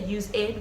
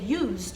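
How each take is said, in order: First: The word is said with two syllables. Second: The word is said with one syllable. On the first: The speaker calls it wrong. "We don't say use ed" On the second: The speaker calls it right. "we say used"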